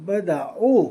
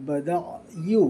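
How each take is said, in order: First: बदाऊ said with a plain "au" ending, no y sound; the wrong take बदाऊ, ending open on "-au"; wrong pronunciation. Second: बदायू with a clear "y" glide before the final u; correct pronunciation. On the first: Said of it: "बदाऊ नहीं पढ़ेंगे". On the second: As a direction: slowly model बदायू as ba-daa-yuu. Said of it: "इसको पढ़ेंगे". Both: Shown as a demonstration.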